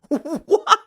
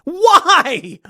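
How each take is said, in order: First: High why through a laugh. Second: Much higher and louder why; can't believe what she did; incredulous why. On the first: Repeating the question to the headline, laughing. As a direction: laugh in disbelief as you ask. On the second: Reacting to the poster-ripping headline, incredulous. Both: Real, not acted.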